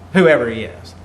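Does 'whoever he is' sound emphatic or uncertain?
uncertain. It is said vaguely, with an unsure tone. The writer does not know who the person is. "like he doesn't know"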